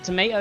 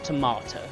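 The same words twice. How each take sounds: First: It is said with an American pronunciation. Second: It is said with a posh British pronunciation. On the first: "Tomato is, like, American" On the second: "you gotta be posh, tomato"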